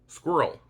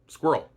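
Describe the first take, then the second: First: The word is said with two syllables. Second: The word is said with one syllable. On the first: "with two syllables" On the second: "with only one"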